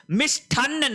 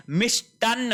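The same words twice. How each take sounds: First: मिष्ठान्न with aspirated th; wrong pronunciation. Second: मिष्टान्न with unaspirated t; correct pronunciation. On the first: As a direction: say मिष्ठान्न as "mish-thaann", pitched higher. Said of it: "नहीं होता है". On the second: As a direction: say मिष्टान्न as "mish-taann". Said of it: "होता है". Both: Shown as a demonstration.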